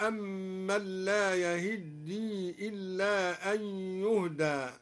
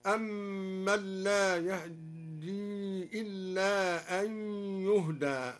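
First: Said in the usual way. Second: Very slow recitation, "يهدي" as yahaddi with a fleeting a after h; concealed fatha on ha. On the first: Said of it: "قرأ الدوري بإخفاء فتحة الهاء". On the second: Shown as a demonstration. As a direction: barely voice the vowel after h in "يهدي", then double the d. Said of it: "قرأ الدوري بإخفاء فتحة الهاء هكذا". (بإخفاء فتحة الهاء في "يهدي")

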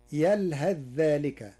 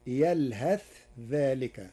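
First: Said in the usual way. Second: "يلهث" ending in a clear th before "ذلك"; unmerged tha. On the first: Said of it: "قرأ ورش كلمة يلهث". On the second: Shown as a demonstration. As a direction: keep the th of "يلهث" distinct, never merged into the dh of "ذلك". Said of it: "بالإظهار وصلا". (إظهار الثاء في "يلهث" عند "ذلك")

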